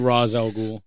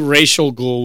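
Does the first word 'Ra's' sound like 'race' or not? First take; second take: unlike race; like race. First: The first word does not sound like 'race'. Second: The first word sounds like 'race'. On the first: The speaker calls it right. "So I would say Ra's al Ghul" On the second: The speaker calls it wrong. "would be too close to racist ghoul"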